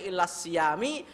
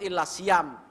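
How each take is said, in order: First: The last word ends with an i vowel. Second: The last word ends without any final vowel. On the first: "enggak boleh" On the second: "yang paling selamat ... Sukun"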